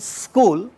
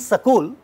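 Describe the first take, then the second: First: The s and k sounds join with no vowel. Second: A short vowel separates the s and k sounds. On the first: The speaker calls it right. "we are saying school" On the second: The speaker calls it wrong. "we are not saying sakul"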